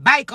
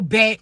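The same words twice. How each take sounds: First: "bike" said with a long i, like bike, for back; Florida "back". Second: Said in the usual way. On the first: Shown as a demonstration. Telling the chosen ones to say "bike" the Floridian way. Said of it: "You gotta say bike". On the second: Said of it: "pull out your Floridian".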